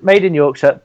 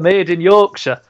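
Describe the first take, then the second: First: It is spoken in the speaker's usual accent. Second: It is spoken in a broad Yorkshire accent. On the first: "going back to my normal accent" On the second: "when I change accents ... this is Yorkshire accent"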